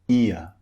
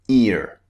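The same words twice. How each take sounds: First: It ends in a vowel with no R sound. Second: It ends with a clearly pronounced R sound. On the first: "we use in British English to replace the R sound" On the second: "In American English, this ear would be pronounced ear. They pronounce the R at the end"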